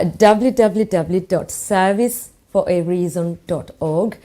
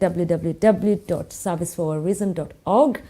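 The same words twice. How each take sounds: First: It is said slowly. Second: It is said at normal speed.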